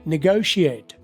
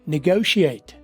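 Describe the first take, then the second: The two takes are said the same way.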